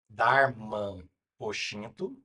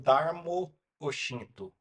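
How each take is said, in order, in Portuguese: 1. O primeiro termo termina com o som nasal 'an'. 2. O primeiro termo termina com a vogal 'o'. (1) "Darman, A N, Oshinto" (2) "Darmo com O, Oshinto"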